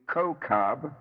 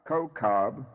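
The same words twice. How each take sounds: The two takes are said the same way.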